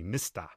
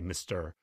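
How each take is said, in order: First: The final R is dropped, New York style. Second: The final R is pronounced.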